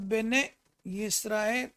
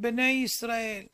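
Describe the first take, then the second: First: Each word keeps its own separate y sound. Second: The two words merge with a single y sound. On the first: The speaker calls it right. "צריך להיות" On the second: The speaker calls it wrong. "ביוד אחת"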